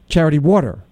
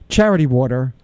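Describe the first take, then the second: First: The stress falls on the word Water. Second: The stress falls on the word Charity. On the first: The speaker calls it right. "I'm putting the emphasis on water" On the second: The speaker calls it wrong. "you say Charity Water"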